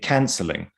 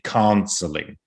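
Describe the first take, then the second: First: The vowel stays; the voice resonance shifts. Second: The vowel itself is changed to sound British. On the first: The speaker calls it right. "I think you'd say canceling. It would just have a resonance" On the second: The speaker calls it wrong. "You wouldn't say canceling"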